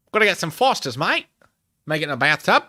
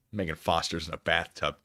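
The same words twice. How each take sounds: First: Higher, louder hammed-up gangster with Australian accent; mock gangster-Aussie accent, punched out loud; Australian-American gangster accent. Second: Said in the usual way. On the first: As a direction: play a 1920s American gangster turned Aussie, accent and all. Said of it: "nineteen twenties American gangster went to Australia".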